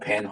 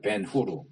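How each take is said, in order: First: The second part has an unrounded 'her' vowel. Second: The second part has a rounded 'hur' vowel. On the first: This is the English reading of the name. The speaker calls it wrong. "영어식으로 읽으니까 벤허" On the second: This is the Hebrew reading of the name. The speaker calls it right. "벤허도 이게 히브리어거든요. 벤후르야"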